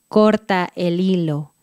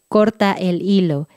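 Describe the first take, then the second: First: It is said at a slower pace. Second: It is said at a quicker pace.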